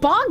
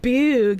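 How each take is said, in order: First: The vowel is short, like in 'log'. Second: The vowel is long, like in 'moon'. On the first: This is how the name actually sounds. "his name was like Son of Bog" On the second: This is a deliberately playful altered version. "I purposely liked pronouncing it like that"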